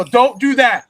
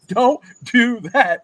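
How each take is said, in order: First: Loud high "don't"; scolding coach. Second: Slow, loud, drawn-out warning; slow scolding. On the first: Coach scolds his son, loud and high. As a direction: stop him firmly, voice up. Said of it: "I go". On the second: Coach repeats the warning to his son, slow and loud. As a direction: stretch each word as a stern warning. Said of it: "I said". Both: Retold or imitated.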